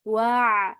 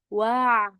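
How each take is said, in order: No difference in how they are said.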